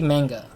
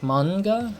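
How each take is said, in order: First: It is pronounced with an English-style pronunciation. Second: It is pronounced with a Japanese-style pronunciation. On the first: This is the old habitual way of saying it. "I used to say manga" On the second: This is the way learned from studying the language. "now that I'm studying Japanese, is like manga"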